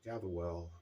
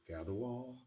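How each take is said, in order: First: The second part sounds like 'well'. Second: The second part sounds like 'wall'. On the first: The speaker calls it right. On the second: The speaker calls it wrong. "say gather wall. Excuse me"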